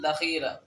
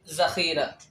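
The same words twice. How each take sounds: First: The first sound is a 'dh' sound. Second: The first sound is a 'z' sound. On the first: The speaker calls it wrong. "لا نقول ذخيرة" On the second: The speaker calls it right. "بل نقول ذخيرة"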